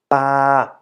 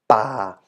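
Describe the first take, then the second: First: The pitch stays level in the middle. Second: The pitch stays low throughout. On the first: "And for the middle tone" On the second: "The low tone"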